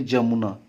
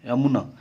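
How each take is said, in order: First: The word begins with a j sound. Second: The word begins with a y sound. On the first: This is the Khortha form. "तो हम लोग उसको बोलेंगे जमुना" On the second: This is the Hindi form. "यदि हिंदी का शब्द है"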